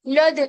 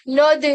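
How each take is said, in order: First: The L sound is heavy and thick. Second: The L sound is heavy and thick.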